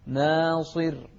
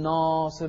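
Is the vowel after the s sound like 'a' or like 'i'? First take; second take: i; a. First: The vowel after the s is an i. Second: The vowel after the s is an open a. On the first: The speaker calls it right. "شوف الصاد عليها كسرة، صي ناصر" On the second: The speaker calls it wrong. "لا تقول ناصر"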